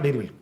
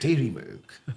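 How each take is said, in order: First: It is read flatly, without expression. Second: It is said lively, with full expression.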